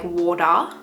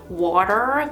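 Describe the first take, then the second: First: It is said in a non-American accent. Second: It is said in an American accent. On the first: "because we say like water" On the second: "switch my accent to like an American or a Canadian accent"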